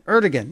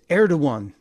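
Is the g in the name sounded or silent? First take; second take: sounded; silent. First: The name is read as spelled, g sounded. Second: The name is said with the g silent. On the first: The speaker calls it wrong. "that's how it's spelled ... if you look at it" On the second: The speaker calls it right. "we should be able to say it correctly"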